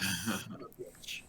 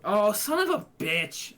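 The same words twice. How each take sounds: First: Low, slow mock groan; retold curse. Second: Loud, higher, real outburst; frustrated shout. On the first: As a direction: replay it deep and dragged out. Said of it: "I'm like". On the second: Real, not acted. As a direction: curse the dice out loud. Bad dice roll, real outburst.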